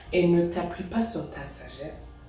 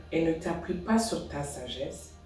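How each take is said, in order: Both takes have the same delivery.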